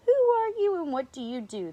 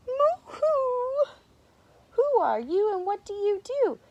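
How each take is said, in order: First: High, loud mock lion roar; loud, raised-pitch lion challenge. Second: Very high, loud friendly singsong; cheery high storybook greeting; nice voice. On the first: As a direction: roar the question as a storybook lion. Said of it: "the lions roared". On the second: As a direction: call out sweetly, pitched way up. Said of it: "came a nice voice". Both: A narrator's reading.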